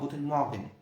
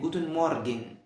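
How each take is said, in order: First: The syllables are quickly run together. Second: Each syllable is said slowly and fully. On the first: "الالمان بينطقوها" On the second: "احنا بنقول ... في الاول"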